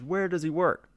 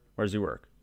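First: It is said most forcefully of all. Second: It is said somewhat forcefully.

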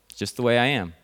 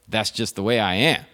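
First: It is said in a resigned tone. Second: It is said in a defiant tone.

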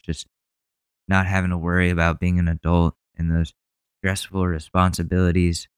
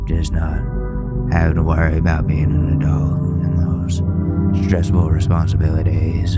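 First: It is read in an ordinary speaking voice. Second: It is read in a dramatic car-commercial voice.

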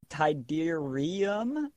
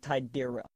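First: The i sound before -um is clearly pronounced. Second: The i sound before -um is barely heard. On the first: The speaker calls it right. "It's Tiderium" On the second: The speaker calls it wrong. "I don't think he said the I enough"

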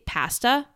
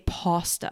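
First: It is said with a Canadian accent. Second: It is said with an American accent.

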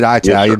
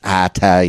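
First: The word is said with a southern pronunciation. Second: The word is said with a standard pronunciation.

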